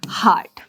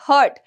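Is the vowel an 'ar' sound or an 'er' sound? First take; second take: ar; er. First: The vowel is an 'ar' sound, like 'hard'. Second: The vowel is an 'er' sound, like 'hurt'. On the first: The speaker calls it right. "इसको हम हार्ट पढ़ेंगे" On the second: The speaker calls it wrong. "कोई कोई लोग हर्ट भी बोलते हैं"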